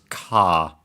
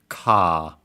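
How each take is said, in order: No difference in how they are said.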